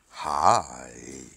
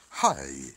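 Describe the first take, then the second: First: The word is drawn out slowly. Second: The word is said quickly. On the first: "느리게 하면" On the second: "빠르게 하면"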